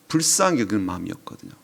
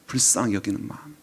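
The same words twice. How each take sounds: First: Said in the usual way. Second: 불쌍히 leaned on, softly, with a lift; soft emphasis on 불쌍히. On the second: Shown as a demonstration. Preacher repeating the key phrase to the congregation, softly stressing 불쌍히. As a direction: repeat it gently, weighting 불쌍히.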